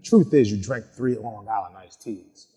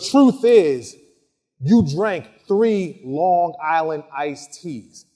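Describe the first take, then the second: First: It is said in a softer, less accusing tone. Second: It is said in a harder, accusing tone. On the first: The witness may simply be mistaken. "I come across less accusatory when I'm asking" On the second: The witness is being accused of lying. "Very, very different body language"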